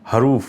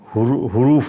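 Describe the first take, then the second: First: The first syllable has an 'a' vowel. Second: The first syllable has a 'u' vowel. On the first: The speaker calls it right. "दुरुस्त लफ्ज़ हरूफ है" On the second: The speaker calls it wrong. "हुरूफ नहीं है"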